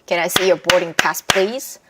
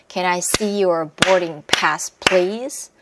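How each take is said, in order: First: It is spoken quickly, with the words linked. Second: It is spoken a little faster, with the words linked. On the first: "조금 더 빠르게" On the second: "이제 조금씩 빠르게 들어가면 돼요"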